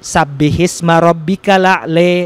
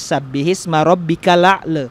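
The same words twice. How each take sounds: First: The final vowel is shifted strongly toward 'e'. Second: The final vowel is shifted only slightly toward 'e'. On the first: "yang imalah besar itu" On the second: "kalau Imam Warus"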